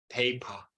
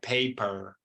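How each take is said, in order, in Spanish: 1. La r final se omite, terminando en schwa. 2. La r final se pronuncia claramente. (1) "del Reino Unido, la R al final por lo general no se pronuncia, suena como un schwa" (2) "pero aquí sería paper"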